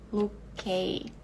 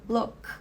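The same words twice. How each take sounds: First: "look" com K pronunciado inteiro; pronúncia errada. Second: "look" com o K preso no meio; pronúncia certa. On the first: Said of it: "Eu não digo look". ("look" do jeito errado, K solto) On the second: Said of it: "eu digo look". ("look" do jeito certo, K cortado) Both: Shown as a demonstration.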